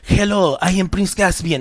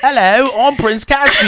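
First: It is said in a Spanish accent. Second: It is said in a British accent. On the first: "I sound like Antonio Banderas" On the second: "when you did a British accent"

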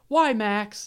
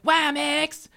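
First: It is said in a natural, ordinary voice. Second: It is said in an odd, cartoonish put-on voice. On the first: "she's not like" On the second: "she sounds like Cartman when she says it"

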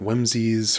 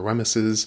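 First: The name is said with two syllables. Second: The name is said with three syllables. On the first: "I pronounced Lady Weems Jig wrong. I called it Whimsies" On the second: "or Wemyses"

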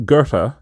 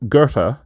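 First: The name is said in a German-like way. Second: The name is said in a German-like way.

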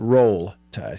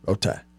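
First: The L sound in the first word is pronounced. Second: The L sound in the first word is dropped. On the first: The speaker calls it right. "he said Roll Tide. He did it correctly" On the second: The speaker calls it wrong. "they don't pronounce the L's. They just say Row"

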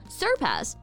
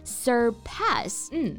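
First: The stress is on the first syllable. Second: The stress is on the second syllable. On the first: The speaker calls it wrong. "不要读成surpass" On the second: The speaker calls it right. "重音呢是在第二个音节surpass"

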